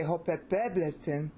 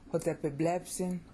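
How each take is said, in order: First: Hotepeblepsin with the stress moved back onto "pe", before blep; misplaced stress. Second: Hotepeblepsin with the stress kept on "blep". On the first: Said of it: "'Cause if you say". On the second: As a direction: keep the beat on blep in Hotepeblepsin. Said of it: "your stress there". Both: Shown as a demonstration.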